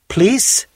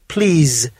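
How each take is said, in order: First: It ends with a hissing s sound. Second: It ends with a buzzing z sound. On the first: "as in the word police" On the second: "with the sound of a buzzing bee"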